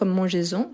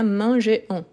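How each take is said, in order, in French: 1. Un son z relie le verbe au pronom. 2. Le verbe et le pronom n'ont pas de son de liaison. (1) "Le S revient pour faire la liaison" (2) "Sinon, ça devient manger-on"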